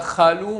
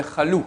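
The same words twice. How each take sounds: First: "chalou" stressed on its first syllable; wrong stress, first syllable. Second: "chalou" stressed on its final "lou"; stress on last syllable. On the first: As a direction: lean on the "cha" of "chalou". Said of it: "Là, il n'est pas en début". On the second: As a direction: land the accent on the "lou" of "chalou". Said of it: "Sur la fin du mot". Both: Shown as a demonstration.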